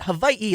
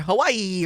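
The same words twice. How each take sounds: First: Hawaii is said the less common, careful way. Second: Hawaii is said the commonly heard way. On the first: "they were saying it Hawaii. Like, it was very good" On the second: "normally we hear Hawaii"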